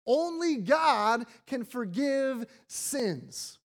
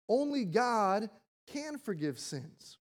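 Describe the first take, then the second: First: "Only" hit hard, louder and slow; indignant stress. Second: Said in the usual way. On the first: Retold or imitated. Pharisees protesting, stressing "Only" indignantly. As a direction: lean on "Only" with offended emphasis. Pharisees' version, then pastor's.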